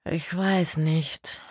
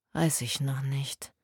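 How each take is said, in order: First: Slow, hesitant reply; halting and unsure. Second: Hesitant. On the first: A narrator's reading. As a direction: draw it out, unsure. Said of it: "sagte Kerstin zögerlich". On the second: Acted. Worried colleague answers quietly.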